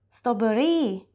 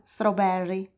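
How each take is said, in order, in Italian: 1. Viene pronunciata con accento thailandese. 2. Viene pronunciata con accento inglese. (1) "per dire fragole dirà strawberry" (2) "e non strawberry"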